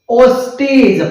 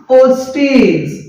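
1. शेवटच्या अक्षरात 'ee' स्वर आहे. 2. शेवटच्या अक्षरात 'ee' स्वर आहे.

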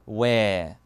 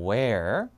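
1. 끝의 r은 발음하지 않아요. 영국식이에요. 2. 끝의 r은 발음해요. 미국식이에요. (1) "영국은 wear" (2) "미국에서는 wear"

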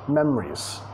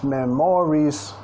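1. La segunda sílaba casi no se pronuncia. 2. La segunda sílaba se pronuncia completa. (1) "estoy comiendo la segunda sílaba" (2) "No es memories"

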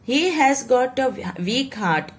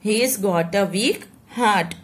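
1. 'has' क्रिया पूरे शब्द की तरह बोली जाती है। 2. क्रिया छोटी होकर 's' की आवाज़ में बदल जाती है।

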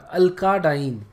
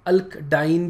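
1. एक जोड़ा गया स्वर 'alk' और 'diene' को आसानी से जोड़ देता है। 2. 'alk' और 'diene' के बीच कोई स्वर नहीं है। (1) "थोड़ा सा फ्लो में बोला जाता है" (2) "अल्क डाइन भी अच्छा नहीं लगता"

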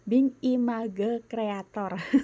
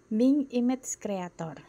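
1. Diucapkan dengan bunyi bergaya Indonesia. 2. Diucapkan dengan bunyi bergaya Inggris.

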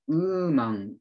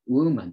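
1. 普通の母音で始まり、w はありません。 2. 母音の前に w の半母音があります。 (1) "ウーマン、ウルフじゃなくて、ウーマンの前にW がつく" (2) "ウーを発音してから、ウーマンとね"

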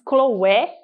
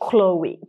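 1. O nome não é dito do jeito inglês. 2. O nome é dito do jeito inglês. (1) "Muita gente diz Chloé" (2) "aqui as pessoas falam Chloe"

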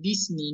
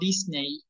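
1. La segunda sílaba no tiene sonido E. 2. La segunda sílaba tiene sonido E. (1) "como si la E no estuviera también" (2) "no Disney"

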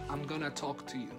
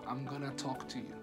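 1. 'Going to' se reduce a una palabra corta. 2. 'Going to' se reduce a una palabra corta.

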